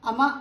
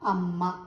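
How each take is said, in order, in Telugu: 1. మధ్య m చిన్నగా, ఒకేసారి పలుకుతారు. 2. మధ్య m ను నొక్కి ఎక్కువసేపు పలుకుతారు. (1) "అమ్మ అనం కదా" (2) "ఒత్తి నొక్కి పలికినాం"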